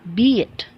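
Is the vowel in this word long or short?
long. The vowel is held longer, American style. "American English has a longer vowel length than the British English"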